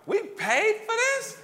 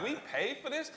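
First: High, loud, slow disbelief at the price; incredulous. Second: Incredulous. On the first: Dad flipping a bad kids' book to check its price, loud high disbelief. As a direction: drag it out high and loud, as if you can't believe you paid for it. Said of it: "every time I'd do like this, flip it over". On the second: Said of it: "I'm like". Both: Retold or imitated.

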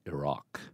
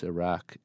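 First: Iraq said "i-RAHK", long open ah, falling and soft; Iraq, posh broad a. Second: Iraq said "i-RACK", a as in cat; first say Iraq with the short flat a of cat; Iraq, flat American. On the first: Poet showing his privileged schooling, Iraq with a broad ah. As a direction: give Iraq the schooled broad ah, dropping quietly. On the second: Poet sets up his pronunciation, Iraq with a flat a. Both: Shown as a demonstration. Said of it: "and I pronounce Iraq".

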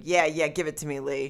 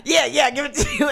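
First: Lightly voiced Hitler, softer at the end; imagined Hitler. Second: High, excited mock shout; hammed-up Hitler. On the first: Imagining Hitler egging on Lee, understated impression. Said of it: "He was a little short man". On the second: Redoing the Hitler line with elbows, hammed-up high shout. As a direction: play it big, as if elbows are pumping. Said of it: "I wanna do my elbows with that".

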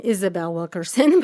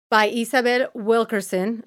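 First: Said in the usual way. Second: Isabel Wilkerson with Spanish vowels, a light Spanish accent. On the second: Shown as a demonstration. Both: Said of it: "I just said it in my Spanish accent".

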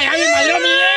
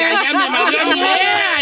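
First: High yelled complaint over a stolen idea; hammed-up shout of a ruined idea; mock outrage shout. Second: Said in the usual way. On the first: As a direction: yell it up high like you've been robbed. Repeats it shouting.

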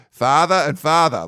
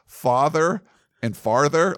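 First: Loud, slow Boston accent, R's dropped. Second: Said in the usual way. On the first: Shown as a demonstration. Recalling Massachusetts school synonyms lesson, Boston accent. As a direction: imitate Massachusetts schoolmates saying both words alike. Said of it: "horrible Boston accent". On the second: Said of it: "like, synonyms".

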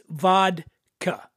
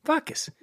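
First: Vodka said slowly with a clear D, VOD-ka; careful vodka. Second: Vodkas said VAH-kuhs, no D, higher; vodka without the D. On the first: Host slowly insists on the proper vodka, D sounded. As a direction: spell out the D in vodka. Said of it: "I know it's vodka". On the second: Host echoes his own D-less vodka that friends mock, pitched up. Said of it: "they make fun of me 'cause I say vodka". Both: Shown as a demonstration.

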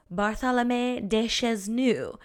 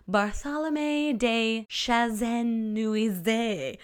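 First: "Chesnu" as two tidy French syllables; corrected French pronunciation. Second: "Chazenuize" dragged out with too many syllables; bad French pronunciation. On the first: Podcaster back with the lawyer's name, corrected pronunciation. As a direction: say "Bartholomew de Chesnu" neatly, without dragging it out. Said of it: "we're back with pronunciation". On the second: Podcaster struggling with a French lawyer's name, botched pronunciation. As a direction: stumble slowly through "Bartholomew de Chazenuize", syllable by syllable. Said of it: "my French is so bad".

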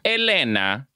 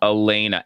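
First: "Elena" said as eh-LEH-na, open E sounds; mispronouncing "Elena" with short flat vowels; wrong pronunciation. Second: "Elena" said as uh-LAY-na, nasal long A; correcting to "Elena" with LAY stressed; right pronunciation. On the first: Host showing the wrong way to say "Elena", eh-LEH-na. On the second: Host correcting the name "Elena" to uh-LAY-na. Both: Shown as a demonstration. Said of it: "Not Elena".

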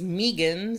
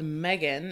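First: "Megan" said MEE-gun; long EE in the first syllable of "Megan". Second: "Megan" said MEG-un; short E in the first syllable of "Megan". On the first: Co-host naming her college roommate, MEE-gun. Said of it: "spelled Megan". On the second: Co-host showing how the spelling reads, MEG-un. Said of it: "she was always called Megan". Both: Shown as a demonstration.

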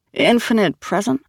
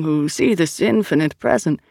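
First: Higher, questioning repeat; disapproving echo. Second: Said in the usual way. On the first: A narrator's reading. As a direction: echo the phrase back with distaste. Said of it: "in a tone that suggested she didn't like the phrase". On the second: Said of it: "in a tone that suggested".

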